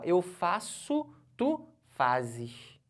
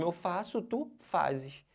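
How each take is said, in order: First: Eu faço, tu fazes drawn out slowly, each word set apart; teacher showing the class the change, spelling out eu faço, tu fazes slowly; slowed conjugation demo. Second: Said in the usual way. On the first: Shown as a demonstration. The teacher slows down to show the change in the verb. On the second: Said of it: "Já percebe logo a mudança".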